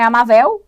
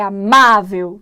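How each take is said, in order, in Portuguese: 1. A tônica cai na última sílaba. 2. A tônica cai na penúltima sílaba. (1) "Não é amável" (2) "é amável"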